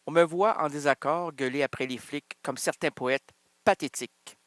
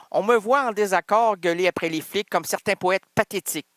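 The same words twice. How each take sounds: First: Steady recited reading of the verse; poem recital. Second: Recited again a bit fuller and more pushed; fuller poem recital. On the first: Starting the poem over for the listeners, recited. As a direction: read the line like a slam poem. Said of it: "Mais je recommence". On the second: After being teased for stopping, reciting with more push. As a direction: give the verse more drive this time. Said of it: "Pourquoi tu t'arrêtes à pathétique?". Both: Shown as a demonstration.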